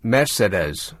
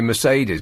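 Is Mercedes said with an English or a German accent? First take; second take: German; English. First: The word is said with a German-style pronunciation. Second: The word is said with an English pronunciation. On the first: This is how Germans probably say it. "This is probably Mes Mercedes, something like that" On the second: This is how English speakers usually say it. "We just say Mercedes"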